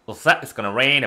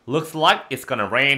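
First: It is said quickly and smoothly. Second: It is said slowly and carefully.

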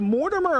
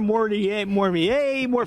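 First: The name is pronounced the English way. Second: The name is pronounced the French way.

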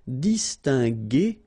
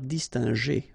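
First: The g is a hard g sound. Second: The g is a soft sound. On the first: The speaker calls it right. "that's the reason why we pronounce it distingué" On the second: The speaker calls it wrong. "and not distingué"

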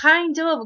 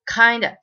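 First: Kind and of are said as separate full words. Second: The words blend into one, ending in a weak vowel.

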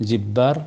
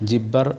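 The two takes are said the same way.

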